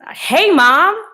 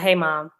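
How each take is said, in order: First: The greeting sounds lively and excited. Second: The greeting sounds tired and low in energy.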